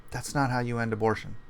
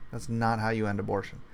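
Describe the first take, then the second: No difference in how they are said.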